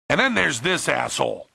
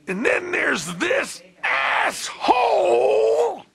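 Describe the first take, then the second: First: It is said softly and gently. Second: It is said loudly and forcefully.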